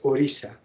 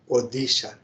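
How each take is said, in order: First: The middle consonant is a soft R-like sound. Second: The middle consonant is a hard D sound. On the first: The speaker calls it right. "it should be pronounced as Orissa" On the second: The speaker calls it wrong. "Now they started using letter D"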